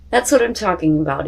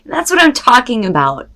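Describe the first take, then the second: First: Said in the usual way. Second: Higher and louder, pumped up; excited cheer. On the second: Real, not acted. Tarot reader cheering a card she loves. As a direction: celebrate the card out loud.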